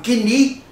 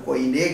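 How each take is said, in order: First: The first syllable sounds like 'kee'. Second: The first syllable sounds like 'koi'. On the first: This is the modern Greek pronunciation. "a pronúncia moderna" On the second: This is how seminaries say it. "conforme diz os seminários"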